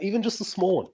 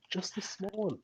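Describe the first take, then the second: First: High voice at normal volume; high-pitched appeal. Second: High, tiny and much softer; small pleading echo. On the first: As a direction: plead for it in a raised pitch. Repeats plea for a small change. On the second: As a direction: repeat it as a hushed, high little plea. Softer echo of the same plea. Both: Real, not acted.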